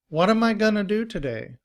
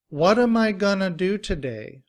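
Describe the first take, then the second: First: The sentence is said at a faster pace. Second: The sentence is said at a normal pace. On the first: "And faster" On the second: "Repeat after me"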